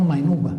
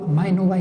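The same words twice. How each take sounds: First: "Maenuba" stressed on NU; "Maenuba" with the accent moved onto "nu"; stress on penultimate syllable. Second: "Maenuba" stressed on the opening MAE; "Maenuba" with short, unstressed "nu"; stress on first syllable. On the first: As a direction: hit the middle of "Maenuba", mae-NU-ba. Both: Shown as a demonstration. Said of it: "¿por qué se acentúa Maenuba y no Maenuba?".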